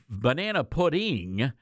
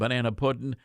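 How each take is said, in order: First: The final g sound of pudding is pronounced. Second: The final g sound of pudding is dropped. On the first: It is not authentically Southern. The speaker calls it wrong. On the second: It is authentically Southern. The speaker calls it right.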